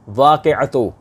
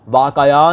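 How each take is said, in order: First: The word ends with the syllables 'atu'. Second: The word ends in a plain short 'a'. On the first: The speaker calls it right. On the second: The speaker calls it wrong. "वाक़या नहीं"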